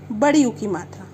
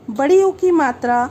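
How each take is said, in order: First: Said in the usual way. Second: "बड़ी ऊ की मात्रा" repeated louder, "बड़ी" hit hard; emphatic repeat. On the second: Shown as a demonstration. Teacher repeats the new matra name for pupils, louder and emphatic. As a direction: call out "बड़ी ऊ की मात्रा" again with force for the class. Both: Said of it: "teacher announces matra twice".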